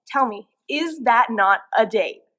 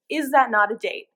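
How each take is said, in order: First: "is that not a date" louder, slow and word by word; insistent emphasis. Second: Said in the usual way. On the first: Acted. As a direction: demand an answer, spacing out "not a date". Insistent repeat of rhetorical question.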